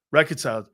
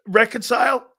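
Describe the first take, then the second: First: Said in the usual way. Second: Puzzled echo. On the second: Real, not acted. Confused echo of a question.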